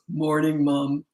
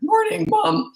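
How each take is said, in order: First: The voice is low and steady without cracking. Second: The voice cracks, jumping between high and low.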